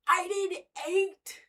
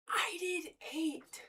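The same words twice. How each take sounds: First: Drawn out, stressing I; slow and proud, a little higher; slow proud claim. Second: Whispered, drawn out and proud; slow whispered boast. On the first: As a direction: savour the claim slowly. Says it slowly, then whispers. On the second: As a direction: breathe it like a secret boast. Whispers the same claim. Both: Real, not acted.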